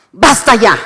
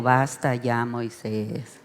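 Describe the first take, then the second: First: Loud, stern "Basta ya" as an angry God; angry command. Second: Quiet, gentle "Basta ya, Moisés"; soft, not angry. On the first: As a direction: slam down "Basta ya" with full force. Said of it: "cuando Dios se enoja". ("Basta ya" con enojo, fuerte) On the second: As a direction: say "Basta ya" softly, with no anger. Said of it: "Dios no le dijo". ("Basta ya" dicho suave, sin enojo) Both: Shown as a demonstration.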